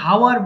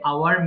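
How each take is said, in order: First: The word begins with an h sound. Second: The word begins directly with a vowel. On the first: The speaker calls it wrong. "ভুল করে অনেকে হাওয়ার বলে ফেলি" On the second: The speaker calls it right. "So হবে আওয়ার"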